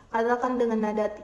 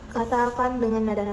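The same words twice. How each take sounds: No difference in how they are said.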